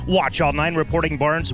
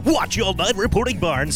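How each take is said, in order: First: It is said in his normal speaking voice. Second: It is said in a put-on radio DJ voice.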